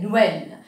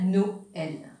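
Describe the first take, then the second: First: The vowels blend into a single syllable. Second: The vowels are split into two separate syllables. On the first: The speaker calls it wrong. "Je ne vais pas dire Noël" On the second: The speaker calls it right. "Je casse mot là ici, je vais dire Noël"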